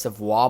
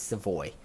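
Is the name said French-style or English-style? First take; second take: French-style; English-style. First: The name is said the Quebec French way. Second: The name is said the English way. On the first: This is the original correct form of the name. "the correct pronunciation is Savoie" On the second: This is the form the player himself uses. "but because he's not from Quebec, it's Savoy"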